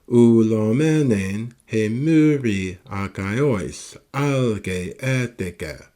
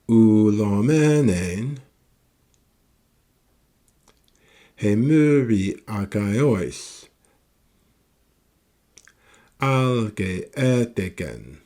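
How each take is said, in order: First: It flows on without a pause before the end. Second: It has a clear pause before the end.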